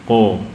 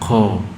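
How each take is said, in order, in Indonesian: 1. Udara ditahan pada konsonan. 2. Udara dilepaskan bersama konsonan. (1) "tapi ko, tertahan" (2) "bukan ko"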